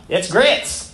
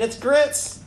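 First: Lightly put-on Southern US waitress accent; drawn-out Southern twang on a waitress's line. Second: Higher-pitched, sarcastic Southern waitress. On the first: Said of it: "in a southern voice". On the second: Acted. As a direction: answer as if it were obvious, pitched up with mock sarcasm. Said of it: "replied with an air of sarcasm in her voice".

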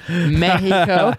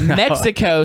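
First: "Mexico" slow, as "Meh-hee-co"; Spanish pronunciation. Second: "Mexico" the English way, with a KS; English pronunciation. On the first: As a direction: draw out "Mexico" with an H for the X. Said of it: "The Spanish". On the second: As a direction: say "Mexico" as "Mek-si-co". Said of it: "some people call it". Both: Shown as a demonstration.

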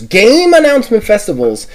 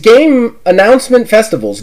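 First: "game" stretched and pitched up before "announcement festivals"; stress on game. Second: Said in the usual way. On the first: Real, not acted. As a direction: hammer the word "game" with a high, long vowel.

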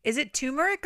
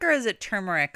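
First: "turmeric" said as TOO-muh-rick; pronunciation variant. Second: "turmeric" said as TUR-muh-rick; pronunciation variant. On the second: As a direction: say "turmeric" with "tur" first, r sounded. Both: Shown as a demonstration. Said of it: "I'm very confused".

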